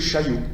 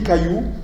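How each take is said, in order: First: The word begins with a soft sh sound. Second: The word begins with a hard k sound. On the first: This is the form expected from standard central French evolution. "si on devait respecter la prononciation et l'évolution euh, typiquement française" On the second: This form keeps a typical northern trait. "le C devant A au Nord reste dur"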